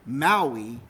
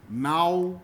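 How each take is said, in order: First: Said in the usual way. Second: "Mau-e" split as MOW, then ee; "Mau-e" in two separated parts; vowel pair, then single. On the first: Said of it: "similarly, Maui is". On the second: Shown as a demonstration. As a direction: break "Mau-e" after the diphthong. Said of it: "you only get pairs of vowels".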